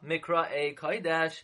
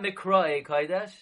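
First: The stress falls on the final syllable. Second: The stress falls before the final syllable. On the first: The speaker calls it right. "it's a milra" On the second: The speaker calls it wrong. "Not mikra'ei kodesh"

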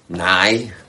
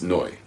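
First: The vowel sounds like 'eye'. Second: The vowel sounds like 'oy'. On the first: The speaker calls it wrong. "you'll meet people who will say nai" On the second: The speaker calls it right. "Because it's a komets, it's noi"

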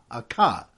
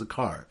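First: The word is said with the r dropped. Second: The word is said with the r sounded. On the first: "Bostonians, pronounce it a ka" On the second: "otherwise known as a car"

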